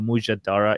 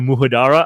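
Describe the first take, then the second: First: The second consonant is a J sound. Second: The second consonant is an H sound. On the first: The speaker calls it right. "It's M U J A D A R A" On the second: The speaker calls it wrong. "they don't pronounce the J because they think it's a H sound"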